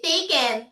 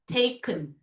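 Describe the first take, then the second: First: The second syllable has a full, clear vowel. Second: The second syllable has a weak schwa vowel. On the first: The speaker calls it wrong. "Most Filipinos would say" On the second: The speaker calls it right. "And the schwa sound, uh"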